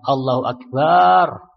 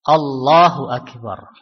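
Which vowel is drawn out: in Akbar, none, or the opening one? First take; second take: in Akbar; none. First: The vowel after b in Akbar is long. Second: No vowel is drawn out unusually long. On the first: The speaker calls it wrong. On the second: The speaker calls it right.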